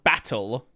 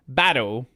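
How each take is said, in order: First: The middle consonant sounds like a clear T. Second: The middle consonant sounds like a soft D. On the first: "not battle" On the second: "That's typically the way you'll say it in Australia"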